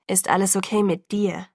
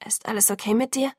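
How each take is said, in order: First: Level question, strain held in; tense, controlled question. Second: A touch of hoarseness, gently asking; hoarse question. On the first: Driver checks on Bella, tense and controlled. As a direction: ask evenly, keeping anger under control. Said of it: "mit angespannter, mühsam kontrollierter Stimme". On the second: Narrator checks on furious rescuer, mildly hoarse. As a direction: ask with a slightly hoarse voice. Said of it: "wie heiser meine Stimme klang". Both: A narrator's reading.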